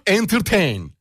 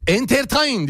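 First: Entertain said the English way, ending in "teyn"; English pronunciation. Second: ENTERTAIN read as written, ending "ta-in"; read as spelled. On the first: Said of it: "Okunuşu sevgili dostum". (entertain, İngilizce okunuşuyla "entırteyn") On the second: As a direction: sound out Entertain the Turkish way, "en-ter-ta-in". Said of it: "diye yazılır". (Entertain, yazıldığı gibi "entertain") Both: Shown as a demonstration.

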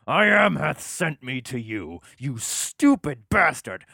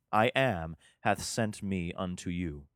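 First: Higher, louder and slow, fuming; mad God. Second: Said in the usual way. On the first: Acted. God losing patience with Moses, mock angry. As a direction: spit it out like an exasperated god. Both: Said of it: "he gets kinda mad".

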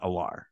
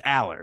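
First: Allar said the wrong way, as "uh-LAR"; "Allar" as the mistaken version, dropped softer and lower; mispronunciation. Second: Aller said the corrected way, first syllable stressed; plainly corrected "Aller"; correct pronunciation. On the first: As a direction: say "Allar" with the second syllable stressed. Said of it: "It's not Allar". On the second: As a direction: say "Aller" as the right version of the name. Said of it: "I can't even say it right". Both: Shown as a demonstration.

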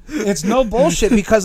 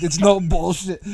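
First: No bullshit repeated higher and louder, slowly; stress on no bullshit. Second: Said in the usual way. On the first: Real, not acted. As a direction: lean hard on no bullshit, slowly.

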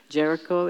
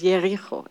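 First: Said in the usual way. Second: Jericho with a Y for the J, "Yericho"; Hebrew pronunciation. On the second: Shown as a demonstration. Teacher showing Hebrew names, Jericho begun with a Y sound. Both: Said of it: "It's like a Y instead of a, a J".

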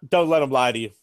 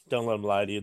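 First: Said in the usual way. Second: Dropped low and soft; low quiet aside. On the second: Pretend. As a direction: mutter it under the breath, much lower. Repeated line, low quiet aside.

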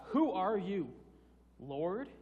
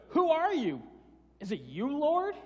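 First: Said in the usual way. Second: High, loud disbelieving cry of who are you; incredulous question. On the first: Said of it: "He questions it". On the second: Retold or imitated. Saul, struck down, asks the voice who it is, high and loud. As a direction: Saul can hardly believe it's the Lord, loudly. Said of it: "It's like".

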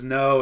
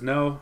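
First: A louder retold "no", half-yelled; mild mock scream. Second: Said in the usual way. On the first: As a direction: throw out "no" as a half-hearted scream. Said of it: "and then he screams". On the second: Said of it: "He says".

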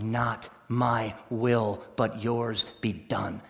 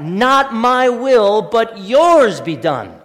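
First: Very slow, lower and softer "Not my will, but yours be done."; hushed heartfelt prayer. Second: Very slow, weighing "Not my will, but yours be done."; slow emphatic quote. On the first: Pastor modelling the heartfelt prayer, hushed and slow. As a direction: breathe the prayer quietly. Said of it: "to pray with all your heart". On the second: Pastor repeating the prayer slowly for the congregation. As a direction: dwell on each word. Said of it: "Think about that". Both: Shown as a demonstration.

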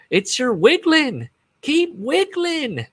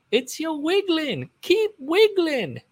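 First: Very high, slow, stretched-out mock whisper-croon; high drawn-out mock voice. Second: Very high, slow, stretched repeat of the bandmate; high drawn-out mock voice. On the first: Bandmate coaxing [name] on stage, very high and slow. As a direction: draw out each word way up high, teasing. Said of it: "but he goes". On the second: Retelling the bandmate's line to the audience, very high and slow. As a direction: float it up high and slow, mocking. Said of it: "I don't think that happened in real life".

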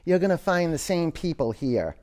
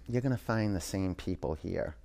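First: Higher and fuller, a warm promise; bright verdict. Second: Low and much softer, a dry knowing reply; grim verdict. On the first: Wise man promises the happy traveler, higher and bright. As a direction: lift it like good news. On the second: Wise man tells the grumpy traveler, low and soft. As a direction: let it drop, quiet and final. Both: Acted.

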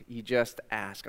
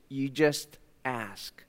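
First: You just ask, softer and slowed; softer repeat. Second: Slow, with JUST weighted; slow emphasis. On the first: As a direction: repeat gently, stressing just. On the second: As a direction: lean on just. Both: Shown as a demonstration.

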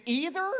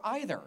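First: "either" with ee; ee-ther. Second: "either" with eye; eye-ther. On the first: Pastor polling the room: EE-ther. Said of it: "is it either". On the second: Pastor polling the room: EYE-ther. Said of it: "or either". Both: Shown as a demonstration.

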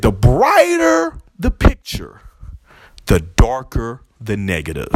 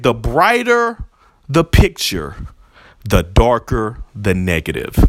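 First: Slow, drawn-out delivery, dropping low at the end; dramatic Kingpin quote. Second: Slow, measured quote with a falling end; quoting Kingpin. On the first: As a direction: linger on it like a villain's wisdom. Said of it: "he said". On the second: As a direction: say it like a remembered line, deliberately. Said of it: "He said". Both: Retold or imitated.

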